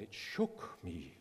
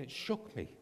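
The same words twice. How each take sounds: First: Low, slow imitated German voice; German accent. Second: Higher imitated German voice; German accent. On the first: Missionary recounting God's word, low slow German accent. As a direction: draw it out in a mock German accent. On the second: Missionary repeating his reaction, higher German accent. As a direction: lift it in a mock German accent. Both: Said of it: "in the same German voice".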